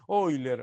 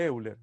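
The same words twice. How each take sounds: First: The name starts with a German-style 'oy' sound. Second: The name starts with Spanish 'e-u' vowels. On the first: This is how the name is said in its original language. "en holandés, alemán, no sé, Euler, algo así se dice" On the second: This is the usual Spanish reading of the name. "en castellano yo siempre le dije Euler"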